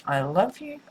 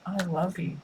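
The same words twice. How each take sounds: First: Said in the usual way. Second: Soft loving murmur. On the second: Acted. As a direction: drop to a soft, intimate I love you. Repeating a channeled love message.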